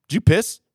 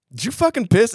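First: Slightly raised, probing question; suspicious question. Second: Higher, more pointed questioning; insistent accusation. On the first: Buddy asking Jim about the wet floor, suspicious. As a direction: imitate a first suspicious check. Retold questioning of suspected friend. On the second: Buddy pressing Jim after his blank reply, accusing. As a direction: imitate pressing a suspect for the truth. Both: Retold or imitated.

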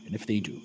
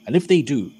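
First: Suddenly sober and hushed; turning serious. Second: Said in the usual way. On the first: Acted. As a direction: repeat it quietly, in grave earnest. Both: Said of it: "turns quite serious for a minute".

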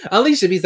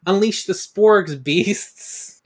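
First: "Unleash" punched loud, falling; unleash the beasts. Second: "Sporgs" stressed, slow rising; corrected slow version. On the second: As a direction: say "Unleash the Sporgs beasts" slowly, rising on "Sporgs". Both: Shown as a demonstration. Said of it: "that's last season".

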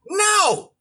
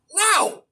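First: High, sharp, certain no; no with full conviction. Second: High, sharp, dismissive no; emphatic no. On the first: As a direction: snap a final no with full conviction. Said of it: "with full conviction". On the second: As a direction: fire back a curt, certain no. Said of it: "listen to how he delivered that no". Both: Retold or imitated.

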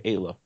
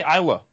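First: "Ayla" opening on an AY sound; long A at the start of "Ayla"; Ayla said AY-luh. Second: "Isla" opening on an EYE sound; long I at the start of "Isla"; Isla said EYE-luh. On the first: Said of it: "Everyone else seems to say Ayla". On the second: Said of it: "I used to say Isla". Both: Shown as a demonstration.

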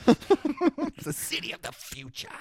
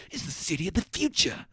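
First: High, slow, stiff line reading; cardboard cutout delivery. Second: Stiff wooden line reading; flat, lifeless movie line; cardboard cutout delivery. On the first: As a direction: drag it out, wooden and stiff. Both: Retold or imitated. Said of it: "He delivers it like he's a cardboard cutout".

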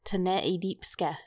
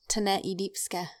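First: "Tene idipske" as expedient spelled backwards, slow; backwards speech. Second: "Tene idipske" spoken slowly, the word backwards; backwards speech. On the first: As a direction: say "Tene idipske" slowly, each syllable clear. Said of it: "Okay, let's hear it". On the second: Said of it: "So one more time". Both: Shown as a demonstration.

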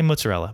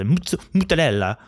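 First: Mozzarella said briskly as muts-uh-RELL-uh; normal pronunciation. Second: Mozzarella fumbled higher, as muta-DELL-uh; idiotic mispronunciation. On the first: Shown as a demonstration. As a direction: keep mozzarella short and unaccented. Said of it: "Just say mozzarella". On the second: Retold or imitated. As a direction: stumble on Mutz, then garble mozzarella. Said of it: "Don't say it like an idiot".

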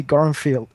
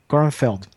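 First: Gorenfeld ending like "feel"; first attempt at surname. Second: Gorenfeld ending like "felled"; second attempt at surname. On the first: Host reading a listener's surname, Gorenfeld ending in "feel". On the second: Host retrying a listener's surname, Gorenfeld ending in "feld". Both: Shown as a demonstration. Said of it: "Sorry if I butchered your name".

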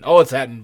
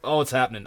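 First: Second take punched louder, delighted; louder, gleeful. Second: Said in the usual way. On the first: Shown as a demonstration. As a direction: say "Oh, it's happening" again with a louder gleeful push. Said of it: "repeated louder". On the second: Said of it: "repeated with more force".

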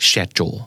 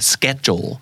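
First: SCHEDULE starting with sh; British pronunciation. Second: SCHEDULE starting with sk; American hard k in "schedule"; American pronunciation. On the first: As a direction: say "schedule" as SHED-jul. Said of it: "ในขณะที่ British จะออกว่า". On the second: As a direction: say "schedule" as SKED-jul. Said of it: "อเมริกันจะออกว่า". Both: Shown as a demonstration.

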